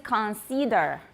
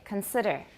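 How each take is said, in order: First: The second vowel sounds like a long E. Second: The second vowel is a short I. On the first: The speaker calls it wrong. "a lot of people in Taiwan say consider" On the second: The speaker calls it right. "the I is a short I"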